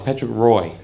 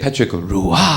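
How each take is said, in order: First: The name is said with English pronunciation. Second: The name is said with French pronunciation. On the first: "His real name is Patrick R O Y" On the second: "they want to say Patrick Roy"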